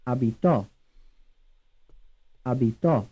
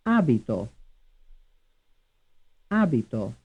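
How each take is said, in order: First: "Abitò" as a-bi-TO; stress on third syllable. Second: "Abito" as A-bi-to; stress on first syllable. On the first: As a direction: land on the final TO of "Abitò". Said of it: "stressed on the third syllable". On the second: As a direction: hit the opening A of "Abito". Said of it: "stressed on the first syllable". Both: Shown as a demonstration.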